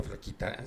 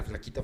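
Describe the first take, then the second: First: Flaquita whispered softly, almost voiceless; whispered repeat. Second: Said in the usual way. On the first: Shown as a demonstration. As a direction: drop flaquita to a breathy whisper. Repite flaquita, luego susurrada. (flaquita susurrado en voz muy baja)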